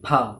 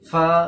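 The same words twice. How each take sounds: First: The first sound is made with both lips. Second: The first sound is made lip against teeth. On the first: The speaker calls it wrong. "অনেক স্টুডেন্ট দূর ঠোঁটটা টাচ করে এমনি করে বলে ফা ফা, তো এটা ঠিক নয়" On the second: The speaker calls it right. "নিচের ঠোঁটটা দাঁতে টাচ হয়ে ফা ফা ফা ফা বলবো"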